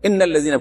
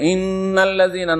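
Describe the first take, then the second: First: The nasal n sound is cut short. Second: The nasal n sound is held long. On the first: The speaker calls it wrong. "যদি গুন্না না পড়ে" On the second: The speaker calls it right. "যদি গুন্না না পড়ে, ইন্নাল্লাযীনা না পড়ে"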